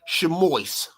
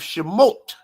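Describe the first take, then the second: First: It is said the Yiddish way, ending in -ois. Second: It is said the Hebrew way, ending in -ot.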